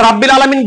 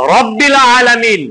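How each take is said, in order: First: রাব্বিল with the first vowel stretched into a long aa; wrong long vowel. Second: রব্বিল with a short, clipped first vowel; correct recitation. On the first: Teacher showing the wrong long-vowel reading. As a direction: drag out রাব্বিল as a mistaken reading. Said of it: "রাব্বিল আলামিন বলার দরকার ছিল". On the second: Teacher showing the correct Quran reading, short vowel. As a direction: say রব্বিল short, not stretched. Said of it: "আমরা রাব্বিল আলামিন বলি নাকি". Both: Shown as a demonstration.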